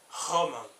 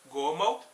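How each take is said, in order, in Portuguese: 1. O primeiro som é um G arrastado e rouco. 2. O primeiro som é um G duro simples.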